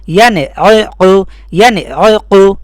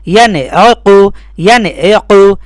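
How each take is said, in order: The two takes are said the same way.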